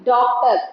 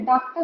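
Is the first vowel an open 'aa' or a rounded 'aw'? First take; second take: rounded aw; open aa. First: The first vowel is a rounded 'aw' sound. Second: The first vowel is an open 'aa' sound. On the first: The speaker calls it right. "ऐसे" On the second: The speaker calls it wrong. "नहीं"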